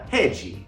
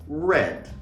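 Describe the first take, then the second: First: It ends with an extra vowel after the consonant. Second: It ends on the consonant, with no vowel after. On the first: "pronunciado com sotaque brasileiro seria rede" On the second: "em inglês"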